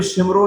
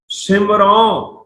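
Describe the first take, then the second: First: ਸਿਮਰੋ said quickly, with short syllables; wrong pronunciation. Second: ਸਿਮਰੋ drawn out slowly, syllable by syllable; correct pronunciation. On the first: Teacher warning against a misreading, ਸਿਮਰੋ quick and short. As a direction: rush through ਸਿਮਰੋ without stretching it. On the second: Teacher showing students the reading, ਸਿਮਰੋ slow and drawn out. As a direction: stretch ਸਿਮਰੋ with a long falling last vowel. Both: Shown as a demonstration. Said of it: "ਇਹਨੂੰ ਸਿਮਰੋ ਨਹੀਂ ਪੜ੍ਹਨਾ".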